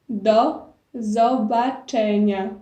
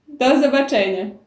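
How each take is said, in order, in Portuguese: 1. A frase é dita mais devagar. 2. A frase é dita mais rápido.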